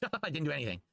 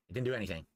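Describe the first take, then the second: First: Laughing it off in disbelief. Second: Said in the usual way. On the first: Real, not acted. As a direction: say it through a laugh.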